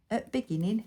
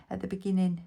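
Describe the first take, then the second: First: Bolton accent, "at beginning" with the "the" dropped. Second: Said in the usual way. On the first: Shown as a demonstration. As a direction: mimic her own Lancashire dialect, "at beginning". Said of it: "my Bolton accent then coming out". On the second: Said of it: "That was my Lancashire".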